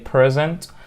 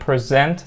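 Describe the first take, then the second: First: The stress is on the first syllable. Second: The stress is on the second syllable. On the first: The word is used as a noun. "two syllable words عندنا nouns تبقى stress في ال first syllable" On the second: The word is used as a verb. "verbs ... stress على second syllable"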